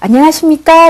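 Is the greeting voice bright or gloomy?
bright. The greeting is said in a bright, cheerful voice. The speaker is glad to see the listener. The speaker calls it right. "밝은 표정과 목소리를 갖고"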